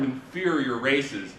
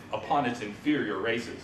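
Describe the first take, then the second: First: Slow, sarcastic inferior races. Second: Said in the usual way. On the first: Shown as a demonstration. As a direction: lean into the irony, slowly. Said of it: "you could hear the sarcasm in his voice". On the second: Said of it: "you could hear the sarcasm".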